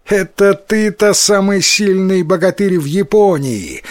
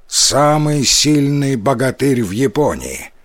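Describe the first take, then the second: First: Выше и громче, с насмешкой; высмеять его хвастовство; насмешливо. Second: Said in the usual way. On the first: A narrator's reading. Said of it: "засмеялся Тикаротаро". (насмешливо, со смехом) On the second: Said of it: "Я Исикотаро".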